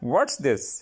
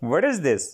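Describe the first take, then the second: First: 'What is' is contracted into one syllable. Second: 'What is' is said as two full words.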